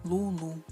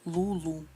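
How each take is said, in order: The two takes are said the same way.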